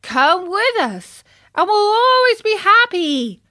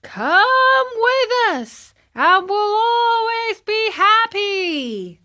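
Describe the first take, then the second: First: Put-on several boys coaxing from the wagon; crying out. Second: Very high, slow, drawn-out crowd shout; a hundred boys chanting at once; higher, slower mass shout; shouting together. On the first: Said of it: "cried four other voices". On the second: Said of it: "shouted the one hundred". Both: A narrator's reading.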